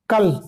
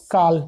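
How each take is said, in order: First: "कल" with a short a; a quick, short-vowelled "कल". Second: "काल" with a long aa; a lengthened, long-vowelled "काल". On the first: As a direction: say "कल" with a brief vowel. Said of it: "तो आपका लघु हुआ है". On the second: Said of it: "आपको क्या मिल गया? दीर्घा". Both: Shown as a demonstration.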